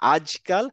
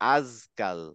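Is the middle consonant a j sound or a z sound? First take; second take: j sound; z sound. First: The middle consonant is a j sound. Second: The middle consonant is a z sound. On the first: The speaker calls it right. "জিম দিয়ে আজকাল" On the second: The speaker calls it wrong. "যদি যা দিয়ে বলেন তখন হবে"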